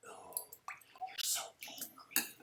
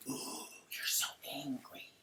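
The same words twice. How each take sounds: First: Whispered taunt. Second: Whispered slow mock taunt; whispered impression of Lisa. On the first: Retold or imitated. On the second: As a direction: breathe it out slowly, taunting.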